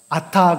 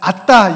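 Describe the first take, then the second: First: The word is said plainly, without extra force. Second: The word is said forcefully, with extra stress. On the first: "아타 그러는 겁니다" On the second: "좀 강조할 때는 아따 이래요"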